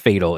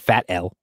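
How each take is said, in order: First: It is said as one word, not 'fat L'. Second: It sounds like 'fat' followed by the letter L. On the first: The speaker calls it right. "It's pronounced Fatal" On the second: The speaker calls it wrong. "It's not Fat L or anything like that"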